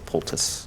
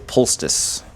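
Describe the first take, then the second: First: No s sound comes before the t. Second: An s sound comes before the t. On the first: The speaker calls it right. "I just say poultice" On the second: The speaker calls it wrong. "Some people say poultice, but there's no S or C before the T"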